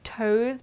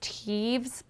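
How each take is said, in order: First: The name rhymes with 'toes', with no v sound. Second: The name has a v sound before the final z. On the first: The speaker calls it wrong. "I've been pronouncing this wrong. I would have said Toes" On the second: The speaker calls it right. "but I think it's Teves"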